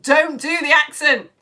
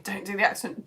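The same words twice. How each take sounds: First: Loud, higher, drawn-out warning; screaming inner voice. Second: Said in the usual way. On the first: Retold or imitated. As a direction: yell it slowly as your panicking brain. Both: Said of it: "my brain starts screaming".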